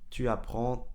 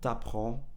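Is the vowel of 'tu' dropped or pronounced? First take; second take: pronounced; dropped. First: The vowel of 'tu' is fully pronounced. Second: The vowel of 'tu' is dropped and merged. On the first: "si vous voulez bien prononcer chaque mot" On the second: "si vous voulez vraiment être fluide"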